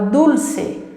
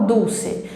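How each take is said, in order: First: "dulce" slowly, with a firm tongue-tip L; emphasized L. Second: "dulce" with the L turned into U, like "duuce". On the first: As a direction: model "dulce", leaning on the L. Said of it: "eu preciso dar essa, essa ênfase". ("dulce" com o L bem enfatizado) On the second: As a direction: say "dulce" the wrong way, no real L. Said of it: "eu não falo dulce". ("dulce" com o L soando como U) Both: Shown as a demonstration.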